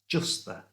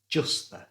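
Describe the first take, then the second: No difference in how they are said.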